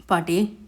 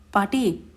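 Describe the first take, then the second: First: Rising call. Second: Falling call. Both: A narrator's reading. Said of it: "குரலில் மிகுந்த மரியாதையோடும் பாசத்தோடும்".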